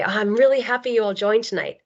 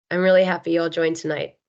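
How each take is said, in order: First: Higher, warmer and more tuneful read; 1 warm intonation. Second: Said in the usual way. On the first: Shown as a demonstration. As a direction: lift the tune to sound truly glad. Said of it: "you get a totally different feeling". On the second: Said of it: "you know, I could say".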